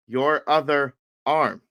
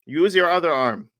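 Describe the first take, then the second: First: Slow, deliberate words; retold slow repetition. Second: Raised, slightly higher instruction; retold coaching call. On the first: Coach repeating to a confused student, slow deliberate repetition. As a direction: spell it out word by word. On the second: Coach instructing a student on the mat, retold coaching call.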